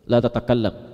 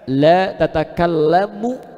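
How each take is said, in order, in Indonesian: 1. Kata terakhir berakhir tanpa vokal akhir. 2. Kata terakhir berakhir dengan vokal akhir u. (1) "ujungnya sukun, mati ... la tatakallam artinya jangan" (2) "kalimat setelahnya harokatnya u ... tidak ada pembicaraan"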